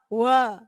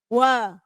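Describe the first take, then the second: No difference in how they are said.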